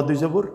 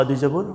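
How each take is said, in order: No difference in how they are said.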